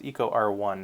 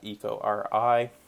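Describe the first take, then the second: First: The final part is said as the number one. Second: The final part is said as the letter I. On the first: The speaker calls it right. "It's Eco R one" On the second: The speaker calls it wrong. "not Eco R I"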